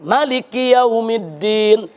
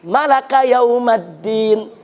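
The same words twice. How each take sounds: First: "Maliki" with a short first a, slowly recited; short-vowel recitation. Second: "Malaka yaumaddin" slowly recited with a-vowels; invented recitation. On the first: Preacher demonstrates an accepted Quran reading, "Maliki" with short ma. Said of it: "Ada yang dipendekkan". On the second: Preacher demonstrates a made-up reading, "Malaka yaumaddin" slowly chanted with a-vowels. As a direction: recite "Malaka" with a in every syllable, drawn out. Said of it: "ada mau bikin qiraat sendiri". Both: Shown as a demonstration.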